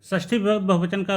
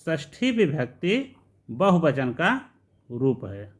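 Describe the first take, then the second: First: Rattled off fast as a recap; quick repeat. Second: Each word drawn out slowly; slow and deliberate. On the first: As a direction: run through the term quickly, already known. (जल्दी से दोहराते हुए) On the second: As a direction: spell out the grammar term slowly for the class. (धीमे, एक-एक शब्द पर ज़ोर देकर) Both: Shown as a demonstration.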